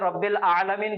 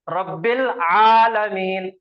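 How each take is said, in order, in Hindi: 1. दूसरा शब्द बिना गले की आवाज़ के मिल जाता है। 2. दूसरा शब्द गले की आवाज़ से शुरू होता है। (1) "हमजा को मिला के पढ़ते, हमजा को साइलेंट रख के पढ़ते" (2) "आइन के साथ पढ़ना चाहिए"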